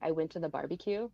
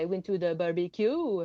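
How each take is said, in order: First: It has a neutral English accent and R. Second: It has a Quebec accent with an exaggerated R. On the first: "instead of saying like" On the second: "Quebecers are like more exaggerated in the R"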